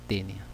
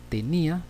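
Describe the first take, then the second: First: "tenia" lower, stressed on the first syllable. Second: "tenía" in three syllables, higher, stressed on í. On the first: Teacher contrasting the second word, "tenia" stressed on te. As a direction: drop "tenia" low, accent on te, no stressed í. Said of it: "para diferenciar de la segunda". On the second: Teacher telling the first word from the second, "tenía" stressed on í. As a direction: hit the í in "tenía", pitched up. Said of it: "la primera debe llevar tilde". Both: Shown as a demonstration.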